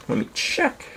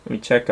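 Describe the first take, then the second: First: High, breathy whisper to himself; whispered aside. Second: Said in the usual way. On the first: Shown as a demonstration. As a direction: whisper it under your breath.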